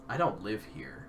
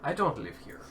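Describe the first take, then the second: First: It is said in a plain, natural voice. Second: It is said in a put-on character accent.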